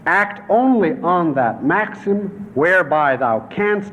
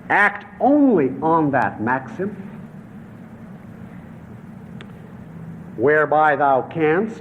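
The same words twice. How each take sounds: First: It is read at normal reading speed. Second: It is read slowly, like dictation.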